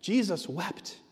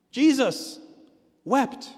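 First: Said in the usual way. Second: JESUS and WEPT each punched high, with a pause between; emphatic repeat. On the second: Real, not acted. Preacher repeating the shortest verse to the church, emphatic. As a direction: break it in two, hitting Jesus, then wept.

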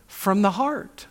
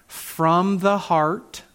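First: From the heart, slowed with a lift on heart; slow emphatic answer. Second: From the heart, slow and deliberate; slow emphatic answer. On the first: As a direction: lean on heart and let it rise. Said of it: "from where?". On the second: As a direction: draw out the answer slowly. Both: Real, not acted.

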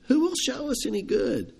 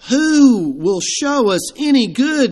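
First: Defeated sigh. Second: Slow, high, sighing lament; defeated sigh. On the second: Despondent men voicing their defeat, slow and sighing. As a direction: let the question sag in defeat. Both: Retold or imitated. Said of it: "a defeated sigh".

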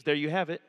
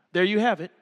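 First: Said in the usual way. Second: There you have it. said firmer, with weight on have; a punchier restatement, landing on have; emphatic repeat. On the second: Shown as a demonstration. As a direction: drive it home with a firm have.

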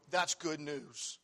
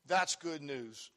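Both takes have the same delivery.

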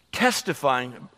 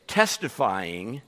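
Both takes have the same delivery.

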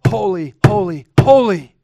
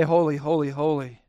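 First: Building louder and higher on each holy; louder, climbing holy, holy, holy; emphatic. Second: Said in the usual way. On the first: Shown as a demonstration. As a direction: swell into a ringing proclamation. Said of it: "no way to be more emphatic". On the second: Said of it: "And they say".

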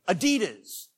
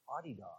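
First: Adidas said as "uh-DEE-dus"; American pronunciation. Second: Adidas said as "AH-dee-das"; German pronunciation. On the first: Preacher showing the American habit, Adidas as "uh-DEE-dus". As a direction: stress the middle syllable of Adidas. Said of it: "just like we say". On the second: Preacher showing how Germany says it, Adidas as "AH-dee-das". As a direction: stress the first syllable of Adidas, softly. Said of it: "if you go to Germany". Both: Shown as a demonstration.

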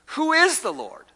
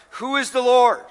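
First: Much higher, mocking Pharaoh's sneer. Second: A hint of a defiant Pharaoh, louder; Pharaoh's challenge. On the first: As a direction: sneer it up high like a scoffing king. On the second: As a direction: fling the question out like a scornful king. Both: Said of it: "the question Pharaoh posed".

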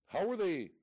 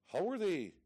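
Both takes have the same delivery.

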